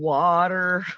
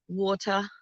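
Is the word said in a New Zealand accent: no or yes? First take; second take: no; yes. First: It is said without a New Zealand accent. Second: It is said with a New Zealand accent. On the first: This is how others say it. "instead of water" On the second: This is how New Zealanders say it. "the way you guys say water"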